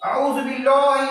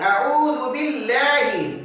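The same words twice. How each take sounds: First: The L is heavy, with rounded full mouth. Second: The L is light and thin, unrounded. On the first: The speaker calls it wrong. "अऊज़ु बिल्लाहि नहीं पढ़ते हैं" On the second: The speaker calls it right. "बल्कि पढ़ते हैं"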